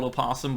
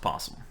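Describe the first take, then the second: First: "opossum" with its first "o" sounded; spelling pronunciation. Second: "possum" without the leading "o"; everyday pronunciation. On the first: Co-host explaining how it is spelled, "opossum" with the o voiced. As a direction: say "opossum" in full, oh-POSS-um. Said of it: "It's spelled opossum". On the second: Co-host explaining how it is pronounced, "possum" with no o. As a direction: say "possum" as two syllables, POSS-um. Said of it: "it's pronounced possum". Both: Shown as a demonstration.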